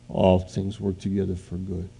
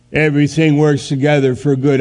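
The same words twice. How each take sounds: First: Gentle. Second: "Everything works together for good" scoffed, higher and louder; sarcastic. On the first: God speaking to your spirit, soft and reassuring. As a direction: let "All things work together for good" land quietly and sincerely. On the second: Preacher mocking the verse to his congregation, sarcastic. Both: Acted.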